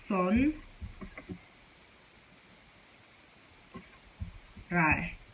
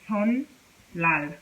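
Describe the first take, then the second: First: An n sound is followed by an r. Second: An n sound is followed by an l. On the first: "some people might say" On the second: "some people might say"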